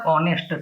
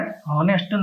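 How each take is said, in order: First: Honest said with a silent h, like onest; correct pronunciation. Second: Honest said slowly with a sounded h, like hoh-nest; wrong pronunciation. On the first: Teacher showing Gujarati learners the right way, honest with silent h. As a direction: drop the h in honest, start on the vowel. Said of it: "આનો ઉચ્ચાર honest થાય". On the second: Teacher showing Gujarati learners the wrong way, slow honest with a clear h. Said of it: "honest નહીં". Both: Shown as a demonstration.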